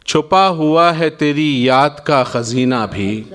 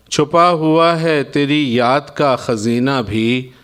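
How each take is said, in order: Both takes have the same delivery.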